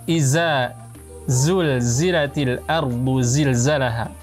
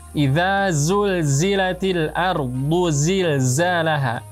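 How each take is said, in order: First: The first word has a 'z' sound. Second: The first word has a soft 'th' sound. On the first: The speaker calls it wrong. "membaca huruf dzal seperti huruf zai dengan merapatkan kedua gigi seri" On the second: The speaker calls it right. "membaca huruf dzal di ujung lidah bertemu dengan ujung gigi saya di atas"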